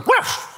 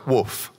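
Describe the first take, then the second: First: It sounds like a dog's bark. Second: It is spoken clearly as a word.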